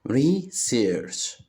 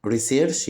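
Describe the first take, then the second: First: "research" broken as re, pause, search; split into syllables. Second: Said in the usual way. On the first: Shown as a demonstration. Teacher showing children two syllables, "research" split in two. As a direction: say "research" in two separate beats. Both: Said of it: "فيها مقطعين صوتيين".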